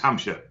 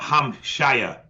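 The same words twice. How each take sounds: First: The ending is a reduced 'sure' sound. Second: The ending is a full 'shire' sound. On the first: The speaker calls it right. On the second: The speaker calls it wrong. "It's not"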